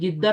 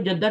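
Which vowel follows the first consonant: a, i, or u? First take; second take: i; a. First: The first vowel is an i sound. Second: The first vowel is an a sound. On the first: "जिद्दा भी पढ़ा जाता है" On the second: "इसको जद्दा भी पढ़ा जाता है"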